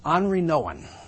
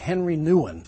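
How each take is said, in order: First: The first name is pronounced the French way. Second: The first name is pronounced the English way. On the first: The speaker calls it right. "you pronounce it French" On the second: The speaker calls it wrong. "I used to think his name was Henry Nouwen"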